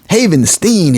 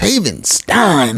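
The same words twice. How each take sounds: First: The last syllable sounds like 'steen'. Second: The last syllable sounds like 'stine'. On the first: The speaker calls it wrong. "I don't think it's Havenstein" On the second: The speaker calls it right. "it's Havenstein, like, you know, Frankenstein"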